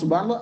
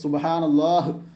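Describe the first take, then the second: First: The final h sound is dropped or weak. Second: The final h sound is clearly pronounced. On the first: The speaker calls it wrong. "അങ്ങനെ ആക്കിയാൽ എന്താവില്ല" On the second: The speaker calls it right. "അവസാനത്തെ ഹാവ് ശരിയായ രീതിയിൽ ഉച്ചരിക്കാൻ വേണ്ടി"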